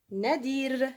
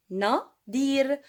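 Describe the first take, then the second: First: Said in the usual way. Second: "Nadir" split as Na, dir, louder on each part; syllable-by-syllable dictation. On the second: Shown as a demonstration. Teacher sounding out a name for pupils, split syllables. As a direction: say "Nadir" with a clear gap after Na.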